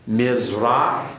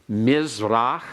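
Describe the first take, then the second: The two takes are said the same way.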